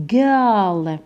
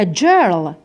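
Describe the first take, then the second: First: Put-on جيرل said slowly as "girl", g as in good; correct hard g. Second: جيرل started with a "j" sound, like "jerl"; wrong soft g. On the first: Teacher corrects the reading for students, slow hard-g demo. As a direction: draw out جيرل with a hard g at the start. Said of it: "بصح في هذه الحاله ننطقوها". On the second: Teacher tests students with a mistaken reading, "j" in place of hard g. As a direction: mispronounce جيرل with j as in jeans. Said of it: "هنا في هذه الحاله راهي خاطئه". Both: Shown as a demonstration.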